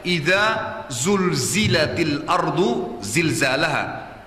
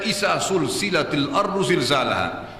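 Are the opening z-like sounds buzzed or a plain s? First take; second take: buzzed; plain s. First: The opening consonants are voiced and buzzing. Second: The opening consonants are a voiceless hissing s. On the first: When the earth is shaken violently. The speaker calls it right. "Pertama pakai zal dulu" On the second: It has no meaning. The speaker calls it wrong. "sudah salah diganti dengan sin"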